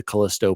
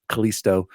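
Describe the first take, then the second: First: "Callisto" as ka-LISS-toe; short i in the middle of "Callisto". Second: "Callisto" as ka-LEES-toe; long ee in the middle of "Callisto". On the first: Host plugging Jose's review, short-i "Callisto". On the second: Host switching to the other option, long-ee "Callisto". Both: Real, not acted. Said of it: "Is it Callisto or Callisto?".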